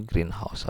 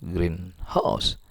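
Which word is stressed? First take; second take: green; house. First: The stress falls on the first word. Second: The stress falls on the second word. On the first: A glass building for growing plants. "compound atau kata majemuk yang ditekan yang di awal" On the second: A house that is green. "kalau yang ditekan yang di akhir dia masuknya frase nomina"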